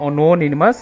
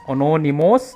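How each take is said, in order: First: The opening syllables sound like 'ano'. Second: The same.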